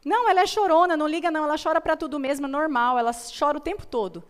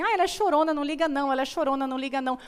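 First: Dismissive mother. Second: Lightly voiced mother brushing it off, a bit higher; a hint of a careless mom waving it away; dismissive mother. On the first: Retold or imitated. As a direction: imitate a careless mom waving the crying away, picking up speed. (mãe desdenhosa, mais alta e mais rápida) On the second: (uma mãe desdenhosa, levemente imitada) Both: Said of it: "vi uma mãe falando assim".

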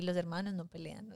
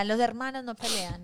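First: Said in the usual way. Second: "Los hermanos no pelean" in a mild mock yell; retold dad yelling. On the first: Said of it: "ahí aprendí". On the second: Dad scolding his daughter while hitting her, in a mild mock yell. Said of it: "me daba y me daba y me decía".

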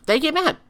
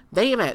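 First: "They get mad" said loud and high; emphatic repeat. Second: Said in the usual way. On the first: Real, not acted.

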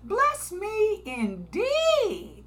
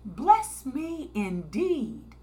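First: Slow, high pleading prayer; drawn-out higher plea "Bless me indeed". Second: Slow plea with less lift; "Bless me indeed" slow and steady; pleading prayer. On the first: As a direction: beg God slowly for blessing. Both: Retold or imitated. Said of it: "like Jabez".

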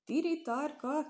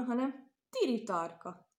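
First: "Tiri tarka!" cried out high and drawn out in wonder; amazed exclamation. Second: Said in the usual way. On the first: A narrator's reading. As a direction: gasp it out, slow and astonished. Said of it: "kiáltott fel csodálkozó mezeiné". (csodálkozó, elnyújtott felkiáltás) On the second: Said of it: "kiáltott fel csodálkozó".

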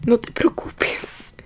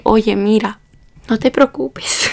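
First: Very slow whisper with a laugh; whispered consoling. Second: Slow, raised, gentle reassurance; imitated consoling. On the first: Retold or imitated. Taxi driver consoling the student at her house, slow whisper. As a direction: stretch it out in a breath of amused whisper. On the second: Taxi driver consoling the student at her house, slow and soothing.

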